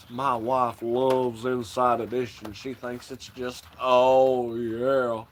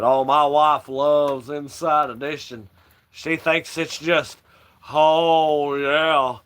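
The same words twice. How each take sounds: First: A hint of the preacher, half under the breath; Kenneth Copeland impression. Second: Slow, louder, lightly voiced televangelist; a mild take on a preacher musing slowly; Kenneth Copeland impression. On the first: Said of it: "Did this fucking video on him". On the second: Televangelist to interviewer, slow and louder, lightly voiced. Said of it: "that's how he talks".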